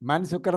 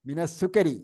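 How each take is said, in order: First: The first word is said with an 'a' vowel. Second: The first word is said with an 'i' vowel. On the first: It asks who is sugar. The speaker calls it wrong. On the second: It means some of the sugar. The speaker calls it right.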